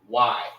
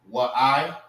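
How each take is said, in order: First: The word is said as a single syllable. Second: The word is said with two syllables. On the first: The speaker calls it right. "it's Y" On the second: The speaker calls it wrong. "Instead of saying what I"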